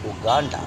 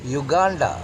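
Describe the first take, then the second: First: It is said with a regional mispronunciation. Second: It is said with the standard pronunciation. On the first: The speaker calls it wrong. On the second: The speaker calls it right.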